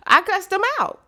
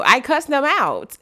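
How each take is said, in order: First: High, punchy boast; cussed them out. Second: Slow, loud, every word landed; slow emphatic repeat. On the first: Telling the audience how he answered his job. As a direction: toss it off high and proud. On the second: Repeating it slowly to the audience for weight. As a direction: lean on each word of "I cussed them out". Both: Retold or imitated.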